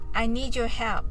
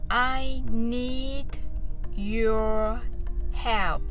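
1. このフレーズは速いペースで言われています。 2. このフレーズはゆっくりのペースで言われています。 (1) "次に早く言ってみましょう" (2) "ゆっくりと練習してみましょう"

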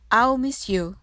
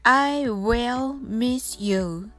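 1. 短縮形の「I'll」を速く言います。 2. 完全形の「I will」を言います。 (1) "これを短縮して早く言います" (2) "未来形を使いますので"

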